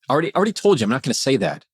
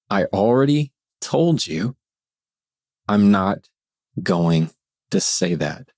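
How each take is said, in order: First: It is spoken quickly at a higher pitch. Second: It is spoken slowly at a lower pitch. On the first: The speaker is rattled and reacting. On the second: The speaker is grounded and in control.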